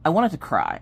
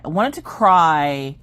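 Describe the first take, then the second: First: Said in the usual way. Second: "cry" drawn out long and louder; emphatic repeat. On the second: Real, not acted. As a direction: stretch "cry" slowly for emphasis.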